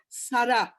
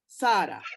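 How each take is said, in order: First: The stress is on the second syllable. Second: The stress is on the first syllable. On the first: The speaker calls it right. "the emphasis is on the second syllable" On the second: The speaker calls it wrong. "not Sarah"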